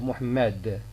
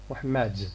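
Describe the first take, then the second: First: The final d is a plain stop. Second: The final d has a slow, hissing release. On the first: "instead of" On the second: "some dialects in Morocco make use of uh, affrication"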